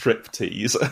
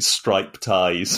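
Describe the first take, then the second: First: The first syllable has a short 'i' vowel. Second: The first syllable has a long 'eye' vowel. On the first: The speaker calls it right. "It's pronounced striptease" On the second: The speaker calls it wrong. "was pronouncing it stripe ties because he hadn't realised it was an English word"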